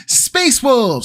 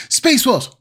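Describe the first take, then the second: First: Howled high like a wolf. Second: High howled wolf cry. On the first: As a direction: howl the words like a wolf. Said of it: "do a Space Wolf howl". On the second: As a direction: howl it out, wolf-style. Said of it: "I'll try that again". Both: Acted.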